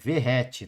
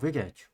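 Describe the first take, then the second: First: The middle consonant is a breathy H sound. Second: The middle consonant is a hard G sound. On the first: It is said the way most people say it. "A galera fala Verrete" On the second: It is said the way it is spelled. "eu vou pronunciar como eu leio"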